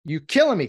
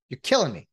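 First: Louder, fed-up repeat; exasperated call to Taylor Rapp; exasperated louder cry. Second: Said in the usual way. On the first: Real, not acted. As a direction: let the frustration burst out on the repeat.

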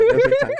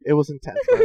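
First: High laughing repeat. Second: Said in the usual way. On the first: Real, not acted. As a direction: laugh through the words. Repeats line, second time laughing.

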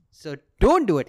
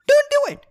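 First: Said in the usual way. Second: Very high, loud mock warning; shrieked prohibition. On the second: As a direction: yell it shrilly as a threatening God. God's escalated prohibition, acted out.

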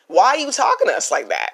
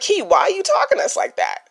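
First: Said in the usual way. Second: Much higher, incredulous "talking" stretched out; mock disbelief. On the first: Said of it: "Y'all are gonna be like". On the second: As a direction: sound like a viewer who can't believe it. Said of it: "you're gonna be like".

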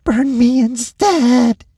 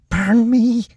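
First: Much higher, louder, slow pleading; desperate plea. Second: Much higher, louder desperate hiss; hissed plea. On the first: Lacey begging the orderly to burn her instead, slow and desperate. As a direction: drag out the begging. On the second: Lacey begging the orderly to burn her, hissing. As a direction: beg through clenched teeth. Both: A narrator's reading. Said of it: "she hissed".

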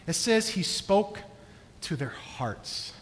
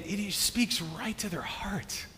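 First: "spoke to their hearts" slowed, the last words dropping soft; slow, tender emphasis on "to their hearts"; stress on to their hearts. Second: "and, and he speaks right to their heart" in a slow, awed whisper; hushed, moved whisper. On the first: Shown as a demonstration. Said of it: "It doesn't say he spoke kindly". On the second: Real, not acted. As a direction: breathe it out, almost secret. Moved, describing Joseph's tenderness.

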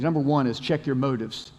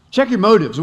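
First: Said in the usual way. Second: Louder, higher, driving the point home; emphatic repeat. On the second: Shown as a demonstration. Pastor to congregation, repeating the point with loud emphasis. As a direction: hammer the phrase a second time.

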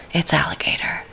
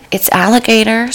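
First: Voiceless, hushed reveal; whisper. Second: Said in the usual way. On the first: Shown as a demonstration. Host repeating the dish name, whispering. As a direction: breathe it like a secret. Same line whispered after.

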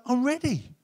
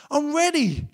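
First: Raised, open and inviting; God welcoming the returning son, eager; eager welcome. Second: Higher, laughing as you repeat it; God delighted at the son's return, laughing; laughing welcome. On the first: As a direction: announce you're ready to welcome him. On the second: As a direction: laugh with joy while saying it. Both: Acted. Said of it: "and God's like".

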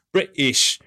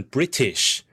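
First: "British" with a glottal stop for the T; dropped-T British. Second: "British" with the T sounded; fully pronounced British. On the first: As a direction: say "British" as "Bri'ish". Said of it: "you've changed a complete word". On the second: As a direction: articulate the middle T in "British". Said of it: "rather, rather than British". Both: Shown as a demonstration.

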